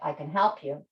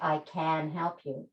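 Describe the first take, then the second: First: The stress falls on the word help. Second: The stress falls on the word can. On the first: The speaker calls it right. "The key word there is help" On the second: The speaker calls it wrong. "I don't say"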